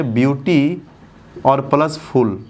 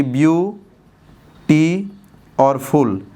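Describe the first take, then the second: First: beauty as one unit, pause, then plus फुल; broken into two parts. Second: beauty split slowly in two, pause, then फुल; broken into syllables. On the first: Teacher showing students the two-part split, beauty plus फुल. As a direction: keep beauty whole, set फुल apart. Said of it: "इसको हम पढ़ेंगे तोड़ करके". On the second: Teacher showing students how they split the word, syllable by syllable. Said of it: "तोड़ तोड़ के पढ़ रहे थे ना". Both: Shown as a demonstration.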